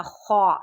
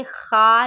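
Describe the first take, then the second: First: خا said full and thick from the upper throat; thick heavy kha. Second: خا said light, not thick; the wrong thin خا; teacher shows the mistake; thin kha, wrong take. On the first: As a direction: give خا a heavy full sound. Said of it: "خا موٹی آواز میں پڑھیں گے". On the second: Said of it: "خا نہیں پڑھنا". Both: Shown as a demonstration.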